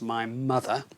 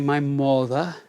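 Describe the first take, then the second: First: The first vowel sounds like the 'u' in 'cup'. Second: The first vowel sounds like the 'o' in 'hot'. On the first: The speaker calls it right. "and of course my mother" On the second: The speaker calls it wrong. "quite often we hear people say my mother, my mother, because it's got an O in it"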